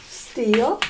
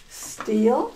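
The two takes are said the same way.

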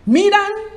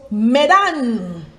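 First: "Midian" squeezed to MEE-dan, held high; MEE-dan for "Midian", pitch up and left hanging; spelling pronunciation. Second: "Medan" with a short first vowel and long, swooping DAHN; corrected pronunciation. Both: Shown as a demonstration. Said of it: "is actually pronounced".

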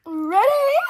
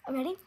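First: High, loud, rising "Ready?"; loud ready call. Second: Said in the usual way. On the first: Pretend. Getting set to sing, repeats it louder.

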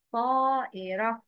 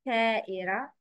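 First: طائرة opened on a dark, heavy t. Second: طائرة started on a thin plain t; wrong light ta. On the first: Teacher gives a word with ta, heavy sound. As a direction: give طائرة a full emphatic first consonant. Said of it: "It's ta". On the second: Teacher shows learners the mistake, wrongly light t. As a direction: lighten the first sound of طائرة to te. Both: Shown as a demonstration.

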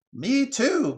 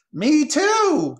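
First: High, loud magpie call; crying out. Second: Very high, very loud bird screech; shrill jeer. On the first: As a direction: cry out to join in, high-pitched. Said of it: "cried another voice". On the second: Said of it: "came a shrill jeer from even higher". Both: Acted.

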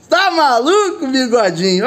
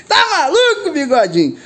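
First: Slow, laughing tease; laughing disbelief. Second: High, laughing tease; high giggling disbelief. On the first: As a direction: chuckle it out at your mate. Laughing at drone clip. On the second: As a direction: laugh through the words at your mate. Laughing after the near miss. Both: Real, not acted.

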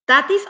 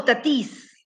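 First: "Tatis" stressed on TA; stress on first syllable. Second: "Tatis" stressed on the last syllable, ta-TEES; stress on final I. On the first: ("Tatis" con acento en la primera sílaba) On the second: ("Tatis" con acento en la i final) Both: Shown as a demonstration. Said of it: "Le pongo acento en la I".

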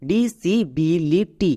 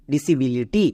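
First: disability very slowly, in five separate beats; very slow teaching model of disability; slow syllable by syllable. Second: Said in the usual way. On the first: Shown as a demonstration. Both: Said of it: "তাহলে একসঙ্গে উচ্চারণ করো".

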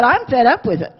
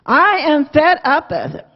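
First: Said in the usual way. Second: "I am" pulled apart and leaned on; firm, separated emphasis on "I am"; stress on "I am". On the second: Retold or imitated. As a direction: spell out "I am" with deliberate emphasis. Repeats it with full words for emphasis.

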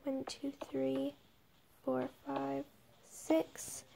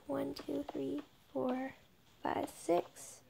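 Both takes have the same delivery.

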